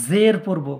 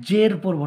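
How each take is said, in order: No difference in how they are said.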